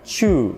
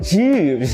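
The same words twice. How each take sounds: First: The vowel is said with rounded lips. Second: The vowel is said with lips spread too far. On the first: "they tend to round their lips and they pronounce it like chu" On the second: "But don't overdo it and go like chu"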